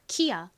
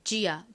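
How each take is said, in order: First: The name begins with a k sound. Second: The name begins with a j sound. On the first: "K가 크 소리가 나기 때문에" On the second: "지읒 소리도 나잖아요"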